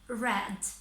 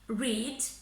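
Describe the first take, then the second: First: The word sounds like the color red. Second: The word does not sound like the color red. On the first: The action happened in the past. "for the past tense and past participle, we use it as read, just like the color" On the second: The action happens in the present. "In the present tense, we say read"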